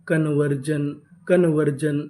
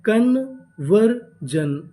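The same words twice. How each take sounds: First: Said in the usual way. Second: Very slow, drawn out syllable by syllable; slow spelled-out build. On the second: Shown as a demonstration. Teacher slowly blending the word for the class. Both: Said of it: "तो पूरी meaning क्या बनी?".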